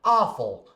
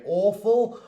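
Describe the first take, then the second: First: American AWFUL with an open "ah" first vowel; American accent. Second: British AWFUL with a rounded "aw" vowel; British accent. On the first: Teacher showing learners the American word, American accent. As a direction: say "awful" the American way, more like "ahful". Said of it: "an American person might say". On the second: Teacher showing learners the British word, British accent. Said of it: "a British person might say". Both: Shown as a demonstration.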